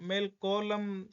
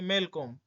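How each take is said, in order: First: The L sound in the middle is pronounced. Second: The L sound in the middle is silent. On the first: The speaker calls it wrong. "मेल कॉलम सही नहीं है" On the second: The speaker calls it right. "एल को silent"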